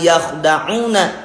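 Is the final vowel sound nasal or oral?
nasal. The final vowel goes through the nose. The speaker calls it wrong. "tapi bukan yakhda'una ya"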